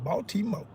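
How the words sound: It is said in an imitated, put-on voice.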